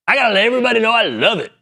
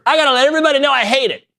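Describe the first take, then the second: First: High, fast gushing mock voice; mock commenter. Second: High, fast whiny mock voice; mock commenter. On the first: Host mocking gushing commenters, high fast mock voice. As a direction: parody a gushing fan. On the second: Host mocking viral-tweet commenters, high fast whiny voice. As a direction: parody an outraged tweeter.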